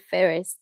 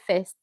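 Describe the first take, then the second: First: The R sound is clearly pronounced. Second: The R sound is left silent. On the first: "but you people will say first" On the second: "in British English they will say first"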